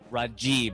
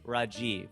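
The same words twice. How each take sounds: First: One syllable carries strong stress. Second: All syllables are even, with no stress. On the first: This is the American way of saying it. The speaker calls it wrong. "or you say Rajiv if you want to use the J" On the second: This is how it is said in India. The speaker calls it right. "but there it's Rajiv. It's just flat"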